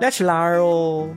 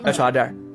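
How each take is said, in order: First: It is said soft, drawn out, rising, Chengdu style. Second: It is said short and falling, Chongqing style.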